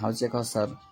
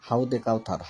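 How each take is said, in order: First: The first word is said with a 'z' sound. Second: The first word is said with a 'd' sound. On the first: A pool of drink in paradise. The speaker calls it right. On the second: It means something else entirely. The speaker calls it wrong.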